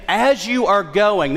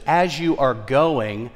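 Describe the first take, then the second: First: "As you are going" slow, raised in pitch and punched; emphatic repeat. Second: "As you are going" drawn out slowly, at an even volume; measured emphasis. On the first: Preacher repeating the verse for congregation, emphatic. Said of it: "It puts the emphasis". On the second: Preacher quoting the original wording to congregation, measured emphasis. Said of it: "Let me say it again". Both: Shown as a demonstration.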